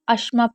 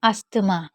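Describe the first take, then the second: First: The 'th' sound is silent in the middle. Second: The 'th' sound is pronounced in the middle. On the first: The speaker calls it right. "टी एच आपका silent होता है" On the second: The speaker calls it wrong. "जिसको हम गलत पढ़ते हैं"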